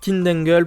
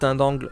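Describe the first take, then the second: First: The name is said with an English pronunciation. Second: The name is said with a French pronunciation. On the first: "la prononciation que j'ai avec la série Vrain" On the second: "c'est à la, à la French version"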